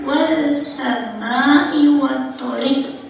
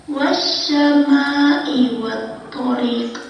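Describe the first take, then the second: First: "wal sama'i" with a clearly sounded l after wa; lam pronounced. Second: "wasyama'i" with the l silent, merged into the next consonant; lam assimilated. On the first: Teacher shows how not to read it, sounding the l in "wal sama'i". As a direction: say "wal sama'i wattariq" slowly, keeping the l separate. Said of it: "tidak dibaca". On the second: Teacher models correct idgham samsiah reading, lam merged in "wasyama'i". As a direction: say "wasyama'i wattariq" slowly, doubling the consonant after wa. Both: Shown as a demonstration.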